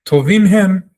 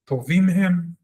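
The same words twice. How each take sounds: First: Tovim said high and loud, stressed; emphatic answer. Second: Said in the usual way. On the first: Shown as a demonstration. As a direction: punch Tovim hem as the answer. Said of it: "reading the answer". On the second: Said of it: "repeated answer".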